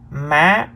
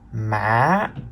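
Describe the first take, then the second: First: The pitch starts high and rises. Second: The pitch dips low, then rises. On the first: "The third tone is the high rising tone" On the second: "The fourth tone is the low rising tone"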